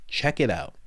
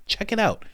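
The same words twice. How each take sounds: First: Said in the usual way. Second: "Check it out." tossed up high and teasing; higher mock urging. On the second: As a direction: egg them on, pitched up.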